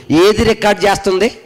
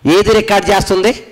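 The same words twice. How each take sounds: The two takes are said the same way.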